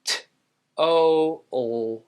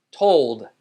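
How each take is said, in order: First: Put-on "t, o, old" piece by piece; sounded out. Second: Said in the usual way. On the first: Shown as a demonstration. Teacher breaks down told, sounded out. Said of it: "Just like hold". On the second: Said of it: "Next word".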